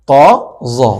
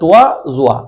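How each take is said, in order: First: Each vowel is plain, with no glide. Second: A 'w' glide comes before each vowel. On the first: The speaker calls it right. "আমরা বলবো" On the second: The speaker calls it wrong. "এগুলো অনেক পুরাতন উচ্চারণ এগুলো ভুল উচ্চারণ"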